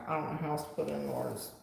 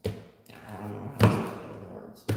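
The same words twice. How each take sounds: First: Said in the usual way. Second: Breathy repeat under the breath; hushed, voiceless aside; whisper. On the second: Shown as a demonstration. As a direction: say it again as a whisper to yourself. Repeats line, then whispers it.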